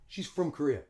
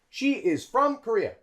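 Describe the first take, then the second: First: 'She is' is contracted and 'from' reduced. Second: 'She is' is said in full. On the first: "a native English speaker would probably say" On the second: "That's great English"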